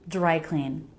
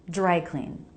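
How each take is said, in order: The two takes are said the same way.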